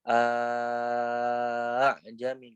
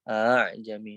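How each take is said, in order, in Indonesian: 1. Hamza dibaca sebagai hentian penuh. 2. Hamza dilembutkan di antara hamza dan alif. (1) "nggak boleh dibaca a jami nggak kayak gitu" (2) "Ini dibaca tashil saja"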